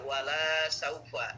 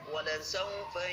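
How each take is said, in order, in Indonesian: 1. Vokal pada 'la' panjang. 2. Vokal pada 'la' pendek.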